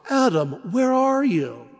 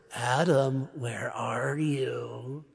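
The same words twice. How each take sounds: First: Put-on higher, tender calling for a lost child; a father anxiously searching for his son; father seeking lost son. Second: Low, slow booming monster voice, much softer; a menacing monster calling out for Adam; big monster. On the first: God calling Adam like a worried father seeking his son. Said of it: "as he would a lost son". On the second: Pretend. God as a monster hunting Adam, slow and menacing. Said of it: "like a big monster".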